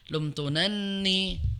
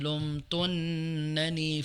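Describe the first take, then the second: First: The second n sound is doubled. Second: The first n sound is doubled. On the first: The speaker calls it wrong. "bukan lumtunanni ... maka yang tasdid belakang" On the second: The speaker calls it right. "yang double adalah yang depan"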